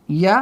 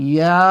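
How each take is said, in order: First: ইয়া said short; ইয়া with no stretch; short vowel. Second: ইয়া held long as a madd; long vowel. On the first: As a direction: end ইয়া on a brief aa. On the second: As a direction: stretch the end of ইয়া. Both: Shown as a demonstration. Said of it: "একটু তামিজ করে দিই".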